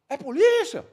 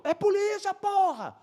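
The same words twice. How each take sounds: First: High, loud incredulous yell; re-enacted shouted question. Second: Very high, strained insistent yell; high-pitched exasperated call across a distance; re-enacted shouted confirmation. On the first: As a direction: shout back a startled question. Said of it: "Aí ele". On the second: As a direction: shout the answer back emphatically.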